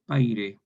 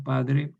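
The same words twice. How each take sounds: First: "paire" with d turned into i; dialect form. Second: "padre" with a clear d-r; standard form. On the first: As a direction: say "paire" like the other Spanish. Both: Shown as a demonstration. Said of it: "en otro castellano".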